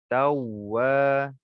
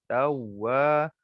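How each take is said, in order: The two takes are said the same way.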